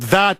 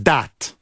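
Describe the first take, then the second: First: The word begins with a soft th sound. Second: The word begins with a hard d sound. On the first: "It's not that" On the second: "they go D"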